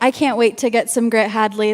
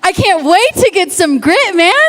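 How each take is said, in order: First: It is said weakly, with little energy. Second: It is said strongly, with more energy.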